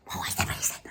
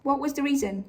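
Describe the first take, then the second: First: Hushed, mocking replay of the line; a soft sneering echo; mock whisper. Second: Said in the usual way. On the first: Shown as a demonstration. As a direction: murmur it back like a parody. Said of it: "mocking repeat". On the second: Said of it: "repeated with different voice".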